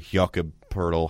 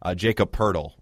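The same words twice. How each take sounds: First: The name is pronounced with a more foreign sound. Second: The name is pronounced in a plain English way.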